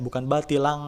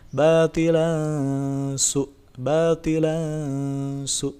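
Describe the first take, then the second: First: Batilang with a clear ng; mock-wrong ng sound. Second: Batilan su with a veiled, hummed n; slow chant, nasal blended into su; sung, ikhfa recitation. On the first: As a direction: incorrect ikhfa. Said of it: "bukan menjadi N G". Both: Shown as a demonstration.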